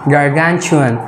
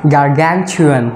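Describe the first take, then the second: First: The ending is said with a 'ch' sound. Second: The same.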